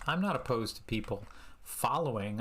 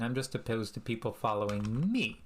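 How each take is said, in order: First: Said in the usual way. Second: "me" leaned on at the end, falling; "following me" with the weight on "me"; stress on me. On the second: Shown as a demonstration. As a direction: land the punch on "me".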